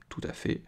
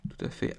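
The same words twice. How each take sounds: First: Breathy whisper to himself; whispered aside. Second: Said in the usual way. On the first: Real, not acted. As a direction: say it almost under your breath. Muttering agreement to himself.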